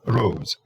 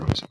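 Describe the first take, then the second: First: The o vowel is drawn out long. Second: The o vowel is kept short. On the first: "when you say rose by itself" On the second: "the O doesn't become as long"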